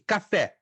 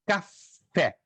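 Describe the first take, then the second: First: Said in the usual way. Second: "café" split into two separate syllables; "café" broken in two for the class; syllable-stress demonstration. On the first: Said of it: "Qual é a sílaba mais enfaticamente pronunciada". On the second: Shown as a demonstration. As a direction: say "café" syllable by syllable, with a gap before "fé". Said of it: "deve ser pronunciada com maior ênfase".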